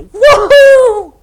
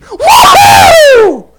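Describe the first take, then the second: First: It is said weakly, without much energy. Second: It is said loudly, with lots of energy.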